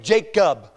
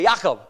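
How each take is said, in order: First: The name has its usual English pronunciation. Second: The name has a Hebrew-style pronunciation. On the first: "they don't say Jacob" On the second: "They say Jacob"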